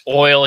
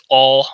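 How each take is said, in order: First: Said in the usual way. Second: "all" for oil in a Southern drawl; deep Southern accent. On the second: Retold or imitated. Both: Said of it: "deep Southern accent, and he says oil".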